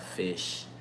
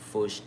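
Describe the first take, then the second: First: The vowel is an 'ih' sound, like 'fish'. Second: The vowel is an 'uh' sound, like 'fush'. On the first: This is the usual way to say it. "instead of fish" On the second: This is how Gullah speakers say it. "They say fush"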